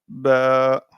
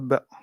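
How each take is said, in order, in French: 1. La voyelle est prolongée. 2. La voyelle est courte. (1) "on est obligé de faire la prolongation" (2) "On ne peut pas dire comme à droite ba"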